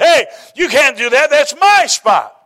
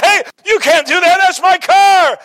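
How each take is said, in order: First: Higher, louder, indignant protest, the last words drawn out slowly; upset older lady. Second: Much higher, loud outraged yell; mortified shout. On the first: Older lady in the parking lot yells at the driver who stole her spot, indignant. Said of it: "And she was upset". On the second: Young driver shouts at the lady who wrecked his Corvette, outraged. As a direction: cry out as your car gets smashed. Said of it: "And he was mortified". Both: Retold or imitated.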